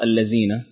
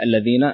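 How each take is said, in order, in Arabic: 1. الحرف هو صوت 'z' مع اهتزاز. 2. الحرف هو صوت 'th' واللسان خارج الفم. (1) "تنطق بالخطأ الذين حرف الزاي" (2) "والصحيح الذين ... حرف الذال يكون اللسان خارج"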